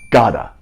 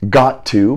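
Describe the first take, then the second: First: 'To' is reduced to a weak schwa sound. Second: Both words are said fully, with a clear 'to'. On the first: "becomes gotta" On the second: "Got to becomes gotta"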